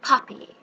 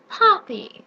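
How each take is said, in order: First: Whispered gloating word. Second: Gloating. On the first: Witch plotting alone, whispered gloating. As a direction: breathe the word Poppies. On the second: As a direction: savour the word Poppies. Witch voices plan. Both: Acted.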